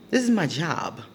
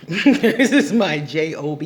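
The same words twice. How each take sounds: First: Said in the usual way. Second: This is my J O B, each letter spelled out louder. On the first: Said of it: "repeated plain". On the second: Real, not acted. Spelling out J O B to stress her work. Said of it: "spells it out".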